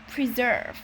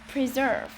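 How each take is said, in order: No difference in how they are said.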